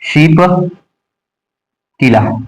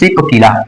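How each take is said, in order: First: The name begins with an sh sound. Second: The name begins with a plain s sound. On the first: The speaker calls it right. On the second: The speaker calls it wrong.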